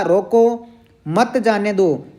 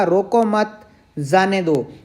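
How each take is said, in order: First: रोको set apart, then मत जाने दो falling together; pause after रोको. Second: Slow रोको मत as one group, break, then जाने दो; pause after मत. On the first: Teacher explaining the first sentence's meaning, pause after रोको. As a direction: stop briefly after रोको before saying मत जाने दो. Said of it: "रोको के बाद में विराम चिन्ह है". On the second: Teacher explaining the second sentence's meaning, pause after मत. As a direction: keep मत tied to रोको, pausing before falling जाने दो. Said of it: "मत के बाद लगा हुआ है". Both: Shown as a demonstration.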